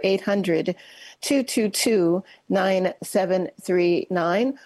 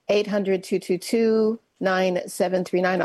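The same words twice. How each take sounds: First: The number is read slowly. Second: The number is read at normal speed.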